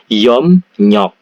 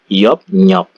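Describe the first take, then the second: First: The syllables join with an m then n sound. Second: The syllables join with a p then n sound. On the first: "Jadi Yop nyok ini dibaca Yom nyok" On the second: "L-nya berubah menjadi N"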